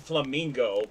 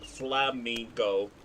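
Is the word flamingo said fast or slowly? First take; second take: fast; slowly. First: The word is said quickly. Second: The word is said slowly and drawn out. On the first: "if you say flamingo fast" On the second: "if you say it slowly, like flamingo"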